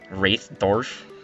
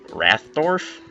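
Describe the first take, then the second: First: The first vowel sounds like in 'wraith'. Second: The first vowel sounds like in 'rath'. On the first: The speaker calls it right. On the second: The speaker calls it wrong.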